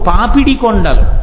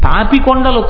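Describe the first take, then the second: First: The first word has its full three syllables. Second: The first word is shortened to two syllables. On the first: The speaker calls it right. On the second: The speaker calls it wrong. "పాపి కొండలు కావు"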